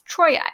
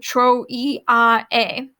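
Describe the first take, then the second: First: The vowels glide together into one sound. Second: The vowels are said as separate syllables. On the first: The speaker calls it right. "It's Troy" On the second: The speaker calls it wrong. "notice how I didn't say tro-e-a"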